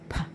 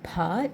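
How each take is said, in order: First: The sound is clipped short without a vowel. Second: The sound is drawn out with a vowel. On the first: The speaker calls it right. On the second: The speaker calls it wrong.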